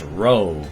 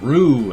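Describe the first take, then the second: First: The name has the vowel of go. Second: The name has the vowel of zoo. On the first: The speaker calls it right. "It's Roe" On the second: The speaker calls it wrong. "I get Rue and Roy"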